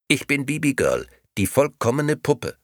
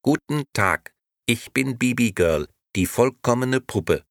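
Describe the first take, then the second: First: High, squawky doll repeating itself; a tinny talking doll on repeat. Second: High, squawky doll talking as if through a phone; a tinny talking doll, high and bright. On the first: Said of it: "quäkte die Puppe". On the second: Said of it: "die etwas quäkend klang, als käme sie aus einem Telefon". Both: A narrator's reading.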